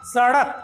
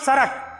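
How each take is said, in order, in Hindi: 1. बीच का व्यंजन मूर्धन्य फ़्लैप है। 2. बीच का व्यंजन एक अलग, बदला हुआ स्वर है।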